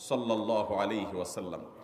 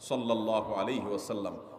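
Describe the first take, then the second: No difference in how they are said.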